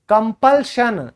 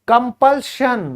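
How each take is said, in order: Both takes have the same delivery.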